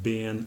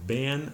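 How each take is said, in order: First: The vowel is a short ih sound. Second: The vowel is a short eh sound. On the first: This is a common American form. "but bin" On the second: This is a regional American form. "or even ban"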